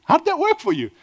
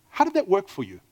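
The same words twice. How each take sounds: First: Repeated much higher, pressing on WORK; incredulous challenge to the congregation; pointed question. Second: Said in the usual way. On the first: Shown as a demonstration. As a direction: ask it again, up high and pointed.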